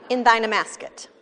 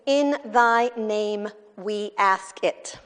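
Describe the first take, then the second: First: In thine amasket, the words slurred into one; run-together mishearing. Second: In thy name we ask it, each word said slowly and apart; careful slow reading; clear slow enunciation. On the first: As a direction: blur name we ask it into amasket. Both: Shown as a demonstration. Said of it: "his grandfather was saying".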